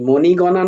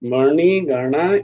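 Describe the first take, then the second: First: The first vowel is a rounded o sound. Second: The first vowel is an open a sound. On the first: The speaker calls it wrong. "মণিগণা নয় কিন্তু" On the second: The speaker calls it right. "এরকম উচ্চারণটা হবে"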